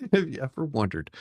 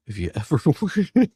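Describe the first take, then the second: First: Said in the usual way. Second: Higher voice broken by a real laugh; breaking into laughter. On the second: Real, not acted. Host introducing children's drawings video, breaking into laughter. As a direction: lose it laughing halfway through the question.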